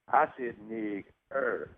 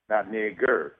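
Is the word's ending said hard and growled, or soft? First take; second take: soft; hard. First: The word is said with a soft, unrolled ending. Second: The word is said with a hard, growled ending. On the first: This is the speaker's own form. The speaker calls it right. "I said" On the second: This is the form someone else used. The speaker calls it wrong.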